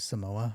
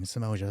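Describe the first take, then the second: First: The middle vowels run together with no glide. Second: A y-like glide separates the middle vowels. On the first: Someone else said it this way. The speaker calls it right. "I believe Jericho pronounced it as Samoa" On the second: This is the speaker's own way of saying it. The speaker calls it wrong. "me saying Samoja"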